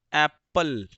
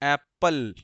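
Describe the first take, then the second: Both takes have the same delivery.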